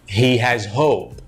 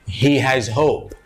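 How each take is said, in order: No difference in how they are said.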